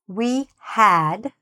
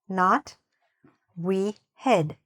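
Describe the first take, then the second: First: The vowel is said with a wide-open mouth. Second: The vowel is said with a less open mouth. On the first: The speaker calls it right. "I need to open my mouth to say this sound properly" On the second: The speaker calls it wrong.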